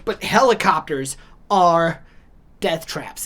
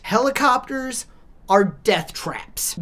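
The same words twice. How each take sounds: First: Said in the usual way. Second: Slow whispered "are death traps". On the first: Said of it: "repeat of claim". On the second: Real, not acted. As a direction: drop to a slow ominous whisper. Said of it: "whispered aside".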